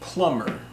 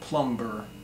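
First: The B sound is silent in the word. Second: The B sound is pronounced in the word. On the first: The speaker calls it right. "but plumber" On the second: The speaker calls it wrong. "It's not plumber"

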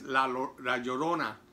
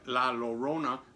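First: The name is pronounced with Spanish sounds. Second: The name is pronounced with English sounds. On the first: The speaker calls it right. "but it's not, it's La Llorona" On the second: The speaker calls it wrong. "I was reading it in English rather"

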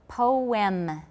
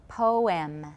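No difference in how they are said.

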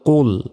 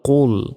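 No difference in how they are said.

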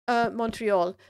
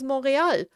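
First: The name is pronounced the English way. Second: The name is pronounced the French way. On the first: The speaker calls it wrong. "people talk about Montreal" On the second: The speaker calls it right. "the real pronunciation is Montréal"

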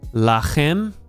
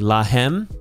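First: The middle consonant is a raspy throat 'ch'. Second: The middle consonant is a soft breathy 'h'. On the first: The speaker calls it wrong. "this is not a chet, ... so I pronounced it incorrectly" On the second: The speaker calls it right. "this is hey"

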